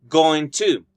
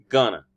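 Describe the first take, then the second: First: Both words are said fully and separately. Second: The words are blended into a reduced form. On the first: "or going to" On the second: "which makes gonna"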